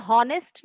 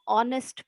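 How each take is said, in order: First: हॉनेस्ट said with a sounded h at the start; हॉनेस्ट with the h voiced; wrong h pronunciation. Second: ऑनेस्ट said with a silent h, starting on the vowel ऑ; ऑनेस्ट with the h left silent. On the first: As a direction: pronounce हॉनेस्ट with an audible h, as the wrong way. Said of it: "मगर मैं हॉनेस्ट नहीं पढ़ूंगी". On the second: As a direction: drop the h in ऑनेस्ट, open straight on ऑ. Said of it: "मैं इसको ऑनेस्ट पढ़ूंगी". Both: Shown as a demonstration.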